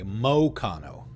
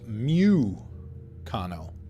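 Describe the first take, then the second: First: The first syllable sounds like 'mow'. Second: The first syllable sounds like 'moo'. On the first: "So it's actually pronounced like an O?" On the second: "or M O O?"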